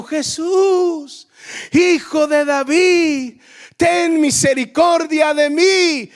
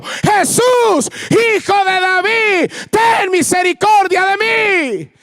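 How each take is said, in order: First: A slow, pleading call, slightly higher. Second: Much higher, louder, slow shouted plea; desperate shout. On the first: Bartimeo calling out to Jesus for mercy, slow pleading call. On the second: Bartimeo shouting to Jesus over the crowd, desperate plea. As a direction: cry out over the crowd with everything. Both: Acted. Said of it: "si estaba en un nivel de grito".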